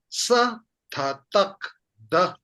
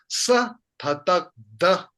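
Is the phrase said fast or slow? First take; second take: slow; fast. First: The syllables are said slowly and apart. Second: The syllables are said quickly together. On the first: "If I slow it down" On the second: "if I read it quick"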